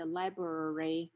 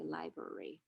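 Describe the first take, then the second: First: "library" with both Rs, lie-brer-ee; full pronunciation. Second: "library" as lie-berry, first R gone; first R dropped. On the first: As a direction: say every R in "library". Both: Shown as a demonstration. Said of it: "the first R is deleted".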